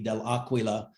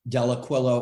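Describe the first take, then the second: First: The name is said with an Italian pronunciation. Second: The name is said with an American pronunciation. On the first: "in Italian, it would be" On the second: "the American pronunciation"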